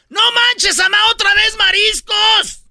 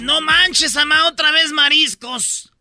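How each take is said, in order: First: It is said loudly, almost shouted. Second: It is said at normal, quieter volume.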